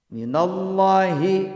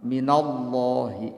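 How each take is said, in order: First: "Minallahi" dilagukan pelan, hi bergetar; chest vibration. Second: "Minallahi" dengan hi bergetar di dada; chest vibration. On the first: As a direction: lagukan "Minallahi" pelan dengan hi dari dada. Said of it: "hi-nya ada getaran". ("Minallahi" dilagukan, hi bergetar) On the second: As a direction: ucapkan "Minallahi" pelan, hi dari dada. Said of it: "Hi-nya harus bergetar dada". ("Minallahi" hi bergetar, lambat) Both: Shown as a demonstration.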